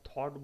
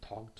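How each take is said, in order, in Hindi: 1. इस शब्द में 'gh' अक्षर साइलेंट हैं। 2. इस शब्द में 'gh' अक्षर बोले जाते हैं। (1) "हम थॉट बोलते हैं" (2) "थॉट नहीं बोलते"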